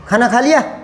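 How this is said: It is said with a questioning tune.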